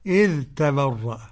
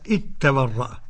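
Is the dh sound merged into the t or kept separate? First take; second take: separate; merged. First: The dh is pronounced clearly before the t. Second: The dh merges into a doubled t sound. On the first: "الإظهار إزاي بقى؟" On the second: "قرأ بإدغام الذال في التاء هكذا"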